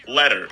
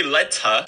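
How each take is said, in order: First: "Letter" with a softened t and final r; dropped t. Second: "letter" with a clear t and no final r; crisp t. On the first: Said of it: "I just don't say the word letter D". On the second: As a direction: say "letter" as LET-uh. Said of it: "I don't say letter". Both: Shown as a demonstration.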